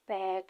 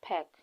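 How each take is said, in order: First: The vowel is drawn out long. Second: The vowel is clipped short. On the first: The speaker calls it wrong. "इस तरह से pronounce करते तो ... long vowel" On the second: The speaker calls it right. "ये short sound है"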